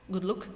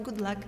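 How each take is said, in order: First: "look" as the Cork way of saying luck; Cork pronunciation. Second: Said in the usual way. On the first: Shown as a demonstration. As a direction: say "look" with the vowel of book. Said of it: "it's good look". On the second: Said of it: "It's not good luck".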